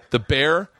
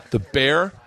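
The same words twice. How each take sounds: The two takes are said the same way.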